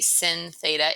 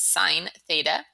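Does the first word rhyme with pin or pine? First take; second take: pin; pine. First: The first word rhymes with pin. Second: The first word rhymes with pine. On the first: The speaker calls it wrong. "Please do not say sin theta" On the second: The speaker calls it right. "It's sine theta"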